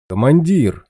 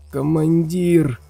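First: Louder living call. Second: High, slow and feeble undead rasp; weak creaky voice. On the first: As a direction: call out from afar. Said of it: "позвал живой невредимый стерх". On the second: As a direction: croak it out like a dying ghoul. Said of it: "слабым голосом проскрипело". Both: Acted.

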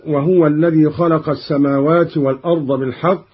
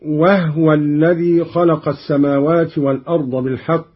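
First: Said in the usual way. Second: وهو as "wahwa", ha without vowel; silent ha. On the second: Shown as a demonstration. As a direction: close the ha of وهو before the waw. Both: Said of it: "بإسكان الهاء".

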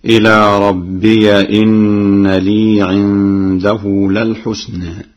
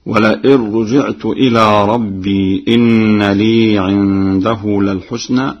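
First: رَبِّيَ with the ya opened, chanted slowly; Warsh reading. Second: Slow chant, ربي with silent ya; Quran recitation. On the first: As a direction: open the ya: ربيَ إن. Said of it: "قرأ ورش بفتح الياء". (بفتح ياء ربيَ) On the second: Hafs reading before Warsh. (تلاوة بإسكان ياء ربي) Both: Shown as a demonstration.

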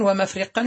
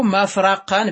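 First: ومفرقا as wa-mafriqan, i on the ra; irregular kasra form. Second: مفرقا as mafraqan, a on the ra; fatha form. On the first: Teacher giving the irregular noun, ومفرقا said wa-mafriqan. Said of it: "شذوذا". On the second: Teacher giving the regular noun, مفرقا said mafraqan. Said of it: "بالفتح". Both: Shown as a demonstration.

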